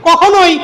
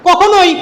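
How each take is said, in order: No difference in how they are said.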